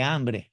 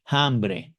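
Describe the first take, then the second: First: Said in the usual way. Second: "hambre" with an audible breathy h at the start, like a J. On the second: Shown as a demonstration. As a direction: Dominican "hambre", jota sound up front. ("hambre" pronunciado con J aspirada: jambre) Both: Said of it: "la cambiamos y le ponemos una J".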